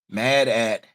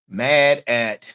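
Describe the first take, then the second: No difference in how they are said.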